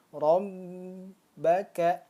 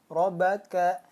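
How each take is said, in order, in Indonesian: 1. Bunyi b ditahan lama. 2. Bunyi b biasa, tanpa ditekan. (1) "contoh yang salah seperti ini" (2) "Kalau tidak ditekan seperti apa?"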